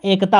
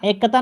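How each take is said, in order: First: "एकता" as ek-taa, single k; corrected form ekta. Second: "एकता" as ek-ka-ta, doubled k and extra a; wrong form ekkata. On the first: Teacher correcting students, "एकता" as ek-taa. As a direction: join k straight to t in "एकता". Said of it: "एकता होता है". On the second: Teacher rejecting the word, "एकता" as ek-ka-ta. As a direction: break "एकता" into ek-ka-ta. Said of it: "एकता नहीं होता". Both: Shown as a demonstration.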